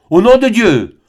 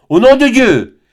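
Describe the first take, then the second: First: Much higher and louder command; thundering friar, first cry. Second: Far higher and louder, at full force; the friar's climactic thundering repeat; thundering, even stronger. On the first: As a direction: bellow it like a preacher's curse. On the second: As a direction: hurl the second cry harder still. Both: A narrator's reading. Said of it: "d'une voix tonnante".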